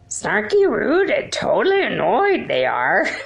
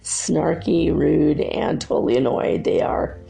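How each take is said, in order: First: It is said in a put-on character voice. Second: It is said in the speaker's normal voice.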